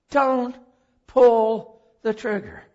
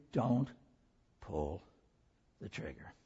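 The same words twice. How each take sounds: First: Loud and slow, each word hammered; urgent plea. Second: Soft, low and intimate; hushed appeal. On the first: Retold or imitated. Preacher begging Heather not to pull the trigger. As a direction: beg her to stop. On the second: Real, not acted. Preacher quietly urging hurting women in the room. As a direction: lean in and murmur it. Same words to congregation.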